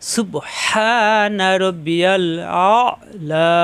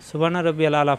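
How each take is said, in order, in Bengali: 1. 'A'la' শুরু হয় একটু চাপা গলার 'ain' ধ্বনি দিয়ে। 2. 'A'la' সাধারণ স্বরধ্বনি দিয়ে শুরু হয়, গলার কোনো ধ্বনি নেই।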